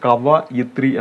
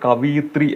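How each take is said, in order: First: The second syllable is said as va. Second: The second syllable is said as vi. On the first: The speaker calls it right. "എന്നതാണ് ശരിയായിട്ട് വരേണ്ടത്" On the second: The speaker calls it wrong. "നമ്മൾ അറിയാതെങ്കിലും പറഞ്ഞു പോകും"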